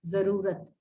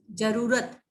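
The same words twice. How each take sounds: First: जरूरत with a z sound; with nukta. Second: जरूरत with a hard j; without nukta. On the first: Teacher shows students जरूरत with the nukta. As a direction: start जरूरत with a buzzing z. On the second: Teacher shows students जरूरत without the nukta. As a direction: start जरूरत with a plain j. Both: Shown as a demonstration. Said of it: "नुक्ता लग जाएगा".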